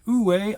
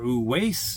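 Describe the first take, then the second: First: The name ends without an S sound. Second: The name ends with an S sound. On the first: The speaker calls it right. "It's Uwe" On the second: The speaker calls it wrong. "some of y'all out there are pronouncing it Uweis"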